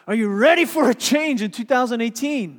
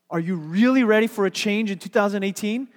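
First: It is said like an energetic motivational speaker. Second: It is said in a plain, ordinary voice.

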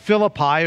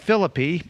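First: The name is said the usual, familiar way. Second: The name is said a local, different way.

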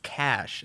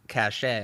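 First: The word is one syllable ending in 'sh'. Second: The word is two syllables ending in 'ay'. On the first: The speaker calls it right. "it's cash" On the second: The speaker calls it wrong. "It's not cachet"

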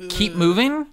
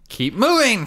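First: It is said plainly, with little energy. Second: It is said loudly, with exclamatory energy. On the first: The speaker calls it wrong. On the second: The speaker calls it right.

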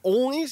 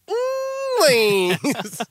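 First: It is said as a teasing question. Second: It is said forcefully, doubling down.

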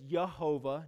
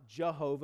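First: The name begins with a Y sound. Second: The name begins with a J sound. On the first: The speaker calls it right. "could actually be pronounced as Yehovah" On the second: The speaker calls it wrong. "not Jehovah, as us English people. We see the J and we think it's a J sound"

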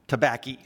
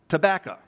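First: The word ends in an 'ee' sound. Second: The word ends in an 'oh' sound. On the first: "On my Papa Clayton's side, they pronounce tobacco" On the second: "on my Papa Brizendine's side, they pronounce tobacco"

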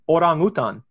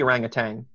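First: The word ends with a plain 'n' sound. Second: The word ends with a velar 'ng' sound. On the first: The speaker calls it right. "It's orangutan" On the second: The speaker calls it wrong. "It's not supposed to be orangutan"

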